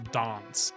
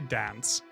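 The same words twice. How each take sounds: First: It has a broad British 'ah' vowel. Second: It has a flat American 'a' vowel. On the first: "I do say, for example" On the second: "I don't say"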